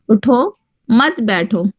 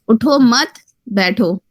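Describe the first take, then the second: First: The pause comes right after 'utho'. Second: The pause comes right after 'mat'.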